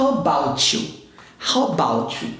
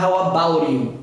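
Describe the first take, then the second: First: "How about you" linked, T and Y merged into CH; CH sound in "about you". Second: "about you" with an R-like T and separate "you"; unblended "about you". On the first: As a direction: say "about you" as "abou-chew". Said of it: "Eu vou falar". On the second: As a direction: say "about you" with a tapped T, "abau-ri you". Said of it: "eu não vou falar". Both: Shown as a demonstration.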